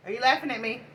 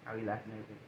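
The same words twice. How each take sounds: First: Higher-pitched challenging question; playful challenge. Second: Low, soft question; hushed repeat question. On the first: Asking baby if they're laughing at her, higher-pitched challenge. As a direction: ask it up high, calling them out. Mock challenge to a loved one. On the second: Asking baby if they're laughing at her, low and soft. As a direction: ask it low and under your voice. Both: Real, not acted.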